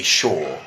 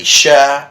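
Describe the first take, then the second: First: "sure" rhyming with shore; second pronunciation. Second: "sure" rhyming with fur; first pronunciation. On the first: Teacher offering viewers the second option, model pronunciation. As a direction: say "sure" with an "aw" vowel. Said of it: "or it could be sure". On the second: Teacher offering viewers the first option, model pronunciation. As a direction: say "sure" with an "er" vowel. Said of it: "It could be sure or". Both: Shown as a demonstration.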